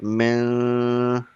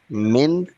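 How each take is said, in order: First: The n sound is held nasally in the nose. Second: The n sound is said clearly without nasal hold. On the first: The speaker calls it wrong. "We don't read like" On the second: The speaker calls it right. "We read clearly without gunna"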